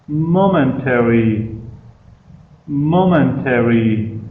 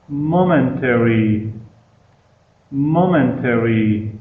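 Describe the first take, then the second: No difference in how they are said.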